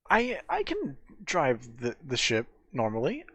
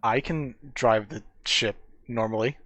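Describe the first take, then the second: First: It is said hesitantly, with stumbling repeats. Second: It is said smoothly and with confidence. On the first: The speaker calls it wrong. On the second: The speaker calls it right.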